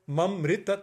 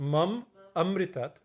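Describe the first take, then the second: First: The word ma runs straight into amritat. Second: The word ma is kept apart from amritat. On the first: It asks for death. The speaker calls it wrong. "means kill me" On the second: It asks for immortality. The speaker calls it right. "means give me immortality"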